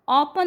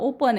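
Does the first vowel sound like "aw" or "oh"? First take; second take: aw; oh. First: The first vowel is an open "aw" sound. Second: The first vowel is a long "oh" sound. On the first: The speaker calls it wrong. "ऑपन चुकीचं आहे" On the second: The speaker calls it right. "ओपन आहे"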